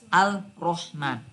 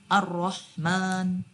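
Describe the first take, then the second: First: The L sound is clearly heard before the r. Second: The L merges into a doubled r sound. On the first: The speaker calls it wrong. "tidak bisa dibaca Al-Rahman" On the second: The speaker calls it right. "tapi Ar-Rahman"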